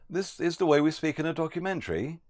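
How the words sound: The pitch glides upward at the end. It is asked as a question. The speaker calls it wrong. "we would raise our tone up with a little glide as well"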